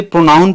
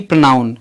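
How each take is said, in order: First: प्रोनाउन as "proh-noun"; correct pronunciation. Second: प्रोनाउन mispronounced as "pra-noun"; wrong pronunciation. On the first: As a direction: say प्रोनाउन with a full ओ, "pro-noun". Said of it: "ओ ही है". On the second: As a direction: say प्रोनाउन with a reduced first vowel, "pruh-noun". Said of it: "न कि". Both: Shown as a demonstration.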